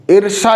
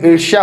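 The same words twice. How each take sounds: First: ईर्ष्या read as "irsa" with a plain s sound; wrong spelling read out. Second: ईर्ष्या said as "irsha" with a clear sh and y sound; correct pronunciation. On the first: Teacher reads the misspelt word to students as "irsa". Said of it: "लेकिन ईर्ष्या होता है ना". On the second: Teacher gives students the correct "irshya". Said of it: "य का sound आता है वहाँ पे". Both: Shown as a demonstration.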